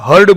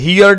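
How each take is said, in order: First: The vowel sounds like the word 'her'. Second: The vowel sounds like the word 'here'. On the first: The speaker calls it right. "હર્ડ બોલાય" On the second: The speaker calls it wrong. "અમુક લોકો આનો ઉચ્ચાર હિયર્ડ એવું કરે છે. હિયર્ડ ના બોલાય"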